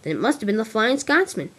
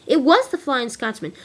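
First: Said in the usual way. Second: WAS punched higher and louder; stress on WAS. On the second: Acted. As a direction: hit the word WAS in sudden realisation. Emphatic realisation of who it was.

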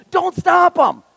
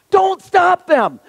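First: High, loud rebuke; urgent Jesus. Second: Slow, high, shouted rebuke; shouted command. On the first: Jesus telling the disciples to let the kids come, urgent and high. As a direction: press the command hard. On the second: Jesus ordering the disciples not to block the children, slow shout. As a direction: lean on every word and shout it. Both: Acted.

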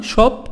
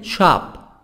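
First: SHOP with rounded British O; higher-pitched British 'shop'; British pronunciation. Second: SHOP with open 'ah', American style; American-accented 'shop'; American pronunciation. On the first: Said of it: "بريطاني". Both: Shown as a demonstration.

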